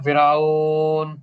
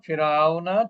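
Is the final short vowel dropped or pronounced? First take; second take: dropped; pronounced. First: The word ends without the final vowel. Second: The word ends with a short vowel. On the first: The reader stops on this word. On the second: The reading continues without a stop.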